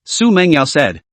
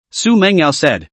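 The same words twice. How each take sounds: The two takes are said the same way.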